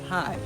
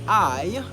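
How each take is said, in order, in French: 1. Le mot commence par un son h ajouté. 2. Le mot commence directement par une voyelle. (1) "on finit par dire hi" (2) "Au lieu de dire I"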